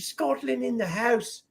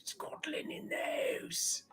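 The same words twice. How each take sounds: First: High, bright announcement of a viewer; excited shout-out. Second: Stage-whispered, high and slow; whispered shout. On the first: Host hyping a Scottish viewer in chat. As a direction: hype up the viewer's country. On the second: Host repeating the shout-out as a whisper. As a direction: whisper it like a hushed cheer. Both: Real, not acted.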